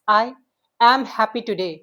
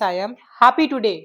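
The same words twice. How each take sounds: First: The stress is on am. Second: The stress is on happy.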